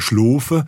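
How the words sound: The main vowel is a long O sound. This is how it is said in Swabian and Alemannic dialects. "also ein O-Laut"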